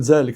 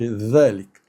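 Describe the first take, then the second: First: The first sound is said without the tongue out. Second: The first sound is said with the tongue out. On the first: This is how people speak in everyday dialect. "نقول ذلك الرجل" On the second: This is the classical pronunciation that people don't use. "ما نقولش ذلك"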